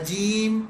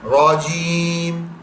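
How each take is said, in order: First: The r sound is light and thin. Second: The r sound is heavy and full. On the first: The speaker calls it wrong. "रजीम नहीं है" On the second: The speaker calls it right. "रॉ, मोटा करना है"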